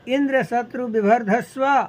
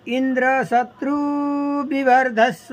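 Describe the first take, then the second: First: The i and u vowels are short. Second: The i and u vowels are long. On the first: May a son grow who will kill Indra. The speaker calls it right. "ह्रस्व ई" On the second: May a son grow who will be killed by Indra. The speaker calls it wrong. "दीर्घ ई उच्चारण किया"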